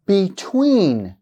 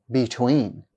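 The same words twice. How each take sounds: First: "Between" slowly, second syllable high and held; stressed second syllable. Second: Said in the usual way. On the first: Shown as a demonstration. Teacher giving a preposition example, slow second-syllable stress. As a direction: stretch the last syllable of "Between". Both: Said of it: "on the second syllable".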